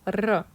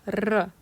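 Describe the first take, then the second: First: The R is rolled with a trill. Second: The R is rolled with a trill.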